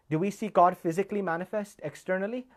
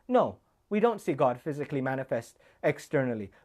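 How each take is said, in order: First: GOD lifted, question rising at the end; rhetorical question. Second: NO hit, falling all the way; emphatic falling answer; firm answer. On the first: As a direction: ask it to the crowd, rising. Rhetorical question, then answer. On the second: Answers own question firmly. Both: Acted.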